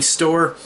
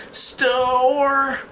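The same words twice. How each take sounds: First: Said in the usual way. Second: High drawn-out imitation of struggling speech; mute girl's strained attempt. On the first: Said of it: "like, saying store". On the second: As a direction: force out one long, high word, mocking a mute child. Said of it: "but she's mute".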